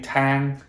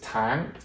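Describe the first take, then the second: First: The word is said with a level tone. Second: The word is said with a rising tone. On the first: The word means ladder. "If we don't have that" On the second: The word means month. "it raises the word"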